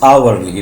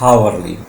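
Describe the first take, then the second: First: It starts with a vowel, no h sound. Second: It starts with an audible h sound. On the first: The speaker calls it right. "it doesn't give ha sound here" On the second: The speaker calls it wrong. "not hourly"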